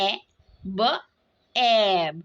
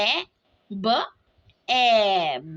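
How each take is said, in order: No difference in how they are said.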